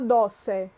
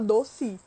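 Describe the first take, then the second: First: The final vowel sounds like 'e'. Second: The final vowel sounds like 'i'. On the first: The speaker calls it wrong. "a gente não fala doce" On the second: The speaker calls it right. "a gente fala doce"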